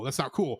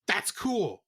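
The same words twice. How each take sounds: First: Said in the usual way. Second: Sarcastic thumbs-up tone; mock approval. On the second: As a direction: fake praise, then dropped. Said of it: "where it's like".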